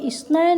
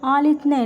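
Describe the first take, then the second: First: The middle consonant is pronounced as 's'. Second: The middle consonant is pronounced as 'th'. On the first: This is the Urdu-style reading. "Urdu में अगर हम पढ़ेंगे तो ये इसनैन होगा" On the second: This is the English-style reading. "English वाला ये जो आपका प्रोनाउंसिएशन है"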